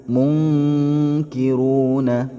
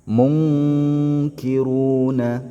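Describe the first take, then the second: The two takes are said the same way.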